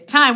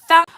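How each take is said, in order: First: The word starts with a plain 't' sound. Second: The word starts with a 'th' sound. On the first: "The Jamaican way" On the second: "Do you pronounce it with a T H?"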